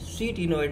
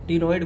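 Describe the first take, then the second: First: The word begins with a pronounced 'k' sound. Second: The word begins directly with a 't' sound. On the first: The speaker calls it wrong. "सी टीनॉइड नहीं" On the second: The speaker calls it right. "यहाँ सी जो है silent है, टीनॉइड बोलते हैं इसको"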